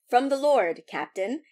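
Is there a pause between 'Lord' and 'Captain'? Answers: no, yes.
yes. There is a pause between Lord and Captain. The dish comes from the lord, and the captain is being addressed. "he says"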